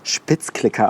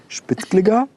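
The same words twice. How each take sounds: First: It is said with a standard German pronunciation. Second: It is said with a Mainz dialect pronunciation. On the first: The speaker calls it wrong. "nicht Spitzklicker" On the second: The speaker calls it right. "sondern Spitzklicker"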